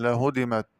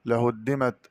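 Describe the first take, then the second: First: لهدمت as "la-hudimat" with a single d; light, undoubled dal in لهدمت; lightened dal. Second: لهدمت as "la-huddimat"; heavy dal in لهدمت; doubled dal. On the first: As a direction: pass quickly over the d in لهدمت. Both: Shown as a demonstration. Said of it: "قرأ بتخفيف الدال".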